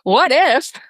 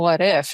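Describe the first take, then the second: First: It sounds eager and hopeful, looking ahead. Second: It sounds wistful and regretful, looking back. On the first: Excited about a possibility still ahead. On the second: Wondering afterwards about something not done. "It's not, well"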